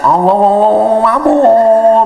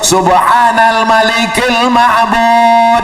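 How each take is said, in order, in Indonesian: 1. Frasa ini digumamkan dan tersambung tidak jelas. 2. Frasa ini dibaca dengan jelas, kata demi kata. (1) "bacaannya kadang saya dengar lah tuh nggak jelas" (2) "Padahal itu lafaznya bagus"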